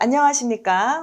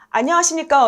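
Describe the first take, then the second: First: The greeting sounds soft and gentle. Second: The greeting sounds plain and curt.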